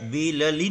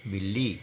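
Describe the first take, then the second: First: A vowel is sounded between the two l sounds. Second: The two l sounds join with no vowel between. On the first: The speaker calls it wrong. "इसको ऐसा बिलली नहीं बोलेंगे" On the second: The speaker calls it right. "इसको बोलेंगे बिल्ली"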